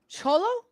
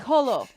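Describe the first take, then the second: First: The name begins with a ch sound. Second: The name begins with a soft h sound.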